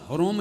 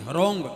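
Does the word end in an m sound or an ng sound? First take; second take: m sound; ng sound. First: The word ends with a closed m sound. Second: The word ends with a nasal ng sound. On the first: The speaker calls it wrong. "हरोम नहीं है" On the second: The speaker calls it right. "अंग की बिंदी है"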